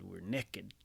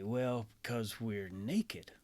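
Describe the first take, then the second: First: Texan drawl. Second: Said in the usual way. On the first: Retold or imitated. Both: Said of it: "if Adam and Eve had been Texans".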